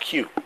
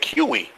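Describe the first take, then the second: First: The word ends without any extra vowel sound. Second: The word ends with an extra 'ee' sound. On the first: The speaker calls it right. "it's pronounced Q" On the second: The speaker calls it wrong. "if I look at that for the first time, I'm gonna say"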